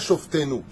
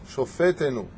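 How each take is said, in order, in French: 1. Aucune voyelle ne s'entend entre f et t. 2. Une voyelle brève s'entend entre f et t. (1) "Pas Shoftenu. Shoftenu en hébreu, c'est nos juges, de l'époque" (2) "Shofetenu. Pas Shoftenu"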